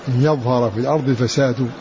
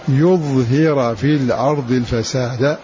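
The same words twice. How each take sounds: First: The last word ends with a 'u' vowel. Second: The last word ends with an 'a' vowel. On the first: Corruption is the one that appears. "أسند الفعل إلى الفساد, فساد فاعل" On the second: Moses is the one who makes corruption appear. "أسند الفعل إلى موسى ونصب الفساد"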